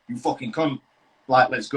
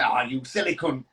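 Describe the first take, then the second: First: It sounds hostile and aggressive. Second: It sounds friendly and joking.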